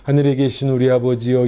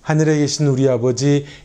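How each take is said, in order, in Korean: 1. 음높이가 평평하고 변하지 않는 패턴을 반복합니다. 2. 구절 전체에서 음높이와 강세가 변합니다. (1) "도레미 미 레 미 이 정도로" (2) "강세에 좀 변화가 있어야 되고요"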